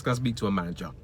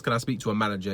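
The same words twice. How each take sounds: First: Entitled customer voice. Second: Complaining customer voice. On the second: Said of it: "whatever that talk is". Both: Shown as a demonstration.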